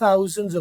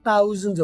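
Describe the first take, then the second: First: The word begins with an s-like sound. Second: The word begins with a plain t sound. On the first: "वो थे नहीं बोलना, से बोलना है" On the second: "अगर से ना बोला जाए आपसे तो तुम सिंपली तय कर लो"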